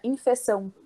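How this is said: It is said with the locals' foreign pronunciation. This is how the people abroad say it. "eles era infecção"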